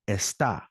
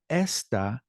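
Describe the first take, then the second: First: The stress is on the second syllable. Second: The stress is on the first syllable. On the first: It means someone is somewhere. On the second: It means this, pointing at a thing.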